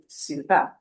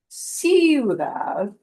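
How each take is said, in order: First: The stress is on the last syllable. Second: The stress is on the first syllable. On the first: The speaker calls it right. "punch the end syllable harder" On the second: The speaker calls it wrong. "It won't be ciudad"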